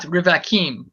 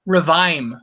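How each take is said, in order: First: The word is said in three syllables. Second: The word is said in two syllables. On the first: The speaker calls it wrong. "not not Rivakim" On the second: The speaker calls it right. "You can you just say Revaim, two syllables"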